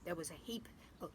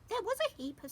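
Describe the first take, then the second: First: It is spoken in the put-on Pooh voice. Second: It is spoken in the put-on Piglet voice. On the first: The speaker calls it wrong. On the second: The speaker calls it right.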